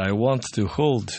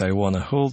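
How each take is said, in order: First: Want to is said as two full words. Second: Want to is reduced to one word, wanna. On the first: "пишется это" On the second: "традиционно произносят"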